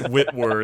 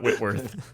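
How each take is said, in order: First: The name ends with an r sound. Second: The name ends with a th sound. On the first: The speaker calls it right. "it's Whitwer" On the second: The speaker calls it wrong. "not Whitworth"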